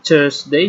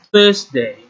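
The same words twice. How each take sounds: First: The word begins with a hard t sound. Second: The word begins with a soft th sound. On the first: The speaker calls it wrong. "kalau memang susah-susah banget, ya udahlah, Thursday juga nggak apa-apa" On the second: The speaker calls it right. "Jadi bacanya jadinya Thursday"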